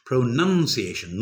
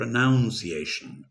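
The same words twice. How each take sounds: First: "pronunciation" with "nun" as the second syllable; correct pronunciation. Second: "pronunciation" with "noun" as the second syllable; wrong pronunciation. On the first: Teacher correcting learners, "pronunciation" said slowly with "nun" inside. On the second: Teacher showing what to avoid, "pronunciation" said slowly with "noun" inside. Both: Shown as a demonstration. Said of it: "not pronunciation".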